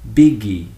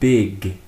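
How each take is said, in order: First: An extra vowel is added after the final g. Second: The word ends cleanly on the g sound. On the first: The speaker calls it wrong. "Some people often have this tendency to say biggie" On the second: The speaker calls it right. "Remember to finish it with the consonant"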